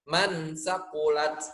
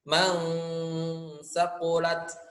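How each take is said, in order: First: The n is pronounced fully and distinctly. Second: The n is blurred into a nasal hum. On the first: The speaker calls it wrong. "bacaan yang salahnya ... itu berarti izhar, jelas" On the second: The speaker calls it right. "itu bacaan yang benar"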